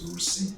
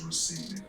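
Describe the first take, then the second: First: The name is pronounced in a French-style way. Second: The name is pronounced in a Kinyarwanda way. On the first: This is how people abroad used to say the name. "before I got to Rwanda, my name was Rusine" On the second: This is the name's original pronunciation. "the real pronunciation of your name"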